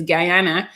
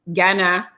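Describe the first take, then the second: First: "Guyana" with its full first syllable, guy-AH-na; correct pronunciation. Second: "Ghana" in two syllables, as people wrongly say it; common mispronunciation. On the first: Correcting listeners on the mother's country, correct pronunciation. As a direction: say "Guyana" starting like the word guy. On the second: Correcting listeners on the mother's country, common mispronunciation. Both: Shown as a demonstration. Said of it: "because people always say that".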